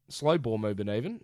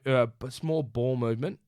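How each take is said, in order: First: Slow leaned on as the fix; self-correcting, Slow stressed. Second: Said in the usual way. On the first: Real, not acted.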